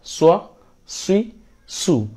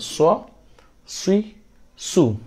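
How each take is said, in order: No difference in how they are said.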